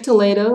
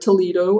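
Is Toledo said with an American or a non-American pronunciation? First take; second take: non-American; American. First: It is said with a non-American pronunciation. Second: It is said with an American English pronunciation.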